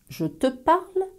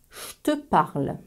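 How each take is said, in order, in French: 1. Le mot je garde son j sonore. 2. Le mot je se prononce comme 'che'.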